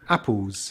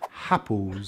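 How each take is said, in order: First: The word starts directly with a vowel sound. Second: The word starts with an added H sound. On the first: The speaker calls it right. "begins with a vowel sound like apples" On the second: The speaker calls it wrong. "It's mistakenly uh, pronounced as happles"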